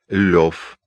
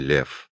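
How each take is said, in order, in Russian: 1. Имя произносится с гласным 'o'. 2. Имя произносится с гласным 'e'. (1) "Толстой произносил свое имя как Лев" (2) "а не Лев"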